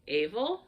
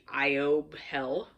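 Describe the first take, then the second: First: It is said smoothly as two syllables, 'ay-vel'. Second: It is read letter by letter, like 'ee-ob hell'. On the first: The speaker calls it right. "maybe Avel sounds better than evil" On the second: The speaker calls it wrong. "if I would to pronounce the Gaelic incorrectly and read how it sounds"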